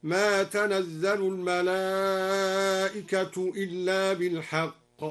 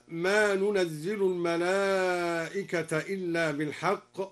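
First: تنزل read as tanazzalu with الملائكة in raf, slow; slow recitation of tanazzalu al-mala'ikatu; Duri reading تنزل. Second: ننزل read as nunazzilu l-mala'ikata, slow; slow recitation of ننزل; ننزل with nun. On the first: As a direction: open t in تنزل, slowly. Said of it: "بالرفع على الفاعلية هكذا". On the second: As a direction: start ننزل with an n. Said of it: "قرأ الدوري بتاء مفتوحة مكان النون". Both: Shown as a demonstration.

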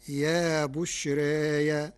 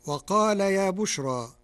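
First: Slow يا بشرى with taqlil and added open ya, bushraya; Warsh reading. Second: Said in the usual way. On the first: Shown as a demonstration. Teacher demonstrates Warsh bushraya, slow. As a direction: draw out يا بشرى ending in -aya. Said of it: "بياء مفتوحة بعد الألف". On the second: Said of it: "قرأ ورش كلمة يا بشرى".

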